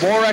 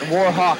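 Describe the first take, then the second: First: The name ends with a short 'wick' sound. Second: The name ends with a 'hawk' sound. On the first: The speaker calls it right. "It's Warwick" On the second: The speaker calls it wrong. "not Warhawk, apparently. Common mistake"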